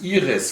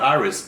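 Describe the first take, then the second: First: The name is pronounced the German way. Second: The name is pronounced the English way. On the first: The speaker calls it right. "Iris we say in German" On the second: The speaker calls it wrong. "not Iris"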